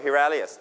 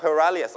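First: "hilarious" with "he" as first syllable; British pronunciation. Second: "hilarious" with a schwa first syllable, "huh"; American pronunciation. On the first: Teacher allows both ways, second "hilarious" with "he". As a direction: say "hilarious" as hee-larious. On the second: Teacher allows both ways, first "hilarious" with "huh". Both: Shown as a demonstration. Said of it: "ได้ทั้งสองนะครับ".

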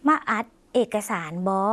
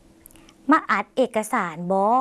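First: Slow, falling at the end; slow Lao demo. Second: Very slow, rising at the end; slow Lao demo. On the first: Teacher repeats the Lao sentence for viewers, slow and falling. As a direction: say มาอัดเอกสารบอ slowly, with the final บอ falling. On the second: Teacher models the Lao sentence for viewers, very slow and rising. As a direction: spell out each syllable of มาอัดเอกสารบอ slowly, ending on a rise. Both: Shown as a demonstration. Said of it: "จำประโยคนี้ได้ไหมคะ".

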